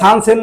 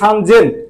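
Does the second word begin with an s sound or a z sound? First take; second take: s sound; z sound. First: The second word begins with an s sound. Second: The second word begins with a z sound. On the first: The speaker calls it wrong. "ওরা সান সেন না বলে" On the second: The speaker calls it right. "বলে সান জেন"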